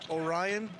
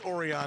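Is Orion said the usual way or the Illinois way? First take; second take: usual way; Illinois way. First: Orion is said the usual way. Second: Orion is said the Illinois way. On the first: "we call Orion" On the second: "that's Orion, Illinois"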